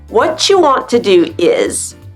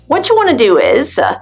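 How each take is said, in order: First: Each word is pronounced fully and separately. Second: The words are run together and reduced.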